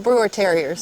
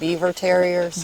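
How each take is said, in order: First: The name is said like 'Brewer', with an r. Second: The name is said like 'Beaver', with a v.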